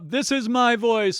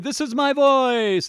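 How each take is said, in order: First: It is spoken at a normal conversational level. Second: It is raised, as if calling someone far away.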